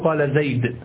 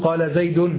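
First: The final word ends with no vowel. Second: The final word ends on a short vowel. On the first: The speaker calls it right. "لو أردت أن تتكلم كلاما صحيحا" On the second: The speaker calls it wrong. "وتقف هكذا"

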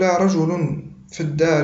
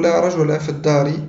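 First: The noun ends in an -un ending. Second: The noun ends in a short a vowel. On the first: It denies one man, leaving room for two. "أي بالرفع" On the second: It denies any man at all, not even two. "أي بالفتح"

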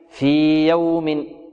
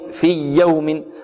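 First: The long vowel is held two beats before the y. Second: The long vowel merges straight into the y sound. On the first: The speaker calls it right. "نمد الياء هنا بمقدار حركتين" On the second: The speaker calls it wrong. "في يوم خطأ"

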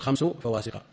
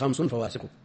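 First: The word 'khams' is said without a final -n. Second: The word 'khams' is said with a final -n. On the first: "هو بإضافة خمس لا بتنوينه، يكون خمس فواسق" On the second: "وإلا على التنوين خمس فواسق"

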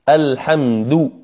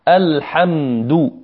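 The two takes are said the same way.

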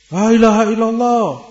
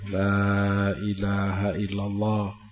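First: It is said loudly and quickly. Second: It is said softly and slowly. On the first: The dying person is pressed harshly. The speaker calls it wrong. "dengan suara keras ... diulang-ulang dengan cepat ... gak benar" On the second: The dying person is guided gently. The speaker calls it right. "Dituntun pelan-pelan dengan penuh kasih sayang"

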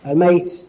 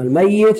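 First: The middle y sound is short and single. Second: The middle y sound is long and doubled. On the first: The person has already died. "الذي مات بالفعل" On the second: The person will die in the future. "يقولون الذي سيموت"

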